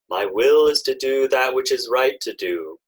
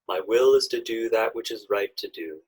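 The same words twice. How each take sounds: First: It is spoken in a loud voice. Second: It is spoken at ordinary volume. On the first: "in a loud speaking voice" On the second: "Now in a normal speaking voice"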